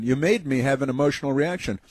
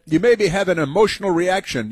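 First: Said in the usual way. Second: Sing-song mock of the woman; mocking whiny woman. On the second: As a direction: mimic her complaint in a high whine. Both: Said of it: "she said".

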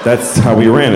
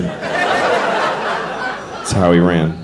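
First: Said in the usual way. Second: Whispered repeat. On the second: Shown as a demonstration. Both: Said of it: "It's an apt description".

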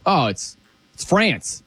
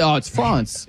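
First: France with a flat American A; plain American "France"; American pronunciation. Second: France as "Frahnce"; affected "Frahnce"; mock French pronunciation. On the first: Acted. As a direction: say France to rhyme with dance, slowly. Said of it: "That's how we say France". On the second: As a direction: say France with a broad "ah", mocking the cultured way. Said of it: "You don't say".

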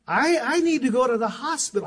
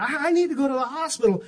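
First: Matter-of-fact, stammering a little over I, I; calmly understated. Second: Matter-of-fact replay, stressing need; casual as if it were nothing; calmly understated. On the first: Retold or imitated. Husband calmly telling wife about a cut thumb, understated. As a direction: say it casually as if nothing were wrong. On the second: Shown as a demonstration. Preacher replaying his calm words to wife, understated. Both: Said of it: "I said it just like that".

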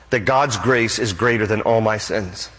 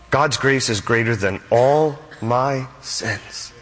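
First: Said in the usual way. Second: "God's grace is greater than all my sins" again, slow and soft, leaning on "all"; slow, solemn repeat. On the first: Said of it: "repeated for emphasis". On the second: Shown as a demonstration. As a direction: let it sink in, slowly. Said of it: "repeated slower, softer".

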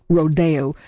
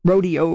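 First: "rodeo" said ro-DAY-o; accent on second syllable. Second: "rodeo" said RO-dee-o; everyday pronunciation. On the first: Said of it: "with the accent on the second syllable". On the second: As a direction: stress the first syllable of "rodeo", with a dee in the middle. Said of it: "why we don't say rodeo". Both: Shown as a demonstration.

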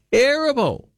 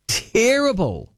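First: "Terrible." flung out high and short; exclaimed verdict. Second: Slow, high, stretched-out "Terrible." with mock disgust; drawn-out disdain. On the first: Host to listeners about the musical, high exclaimed scorn. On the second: Radio host dismissing Mary Poppins, drawn-out scorn. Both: Real, not acted.

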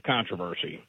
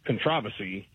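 First: Controversy stressed on the first syllable, "CON-troversy"; American stress on controversy. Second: Controversy stressed on the second syllable, "con-TROV-ersy"; British stress on controversy. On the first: Caller contrasting it with England's, controversy stressed on CON. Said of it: "We have controversy". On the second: Caller showing how England says it, controversy stressed on TROV. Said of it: "England has controversy". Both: Shown as a demonstration.

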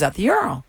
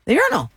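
First: Said in the usual way. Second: "urinal" lifted high for emphasis; emphatic repeat. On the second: Real, not acted. Host stressing where McConaughey was, emphatic high "urinal". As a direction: punch "urinal" on a high pitch.

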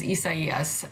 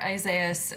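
First: Isaias said as ee-sah-EE-us; four syllables in Isaias, stressed on the EE; correct pronunciation. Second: Isaias said as eye-ZAY-us; American-style Isaias, three syllables with stressed ZAY; US pronunciation. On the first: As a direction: open Isaias on "ee", with an s in the middle. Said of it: "the actual correct pronunciation is". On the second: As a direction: open Isaias on "eye", with a z sound. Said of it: "for those of us in the U S". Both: Shown as a demonstration.

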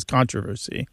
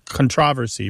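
First: "controversy" with the first syllable stressed, CON-troversy; front-stressed "controversy". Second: "controversy" with the second syllable stressed, con-TROV-ersy. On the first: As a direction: hit the opening syllable of "controversy". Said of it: "stressed on the first syllable". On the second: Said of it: "stressed on the second syllable". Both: Shown as a demonstration.

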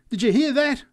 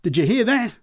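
First: High, loud, stressing hear; excited repeat again. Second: High, loud incredulous call; excited repeat. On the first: Drunk repeating to the crowd, stressing hear. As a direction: press the crowd, punching hear. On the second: Drunk calling out to the crowd behind him, excited. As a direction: turn to the crowd and demand it. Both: A narrator's reading. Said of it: "kept repeating".

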